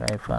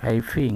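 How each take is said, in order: First: The word ends with an 'a' vowel. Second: The word ends with an 'i' vowel. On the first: The speaker calls it right. "Ini selama ini baca" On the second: The speaker calls it wrong.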